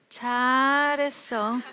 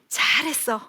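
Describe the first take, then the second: First: It sounds cold and sarcastic. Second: It sounds warm and sincerely pleased. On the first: The child did badly and is being reproached. "아래 위로 훑어보면서" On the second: The child really did well. "아이가 시험을 잘 봐 가지고 왔어요"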